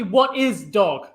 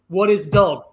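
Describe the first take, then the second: First: The voice does not rise at the end. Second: The voice rises at the end.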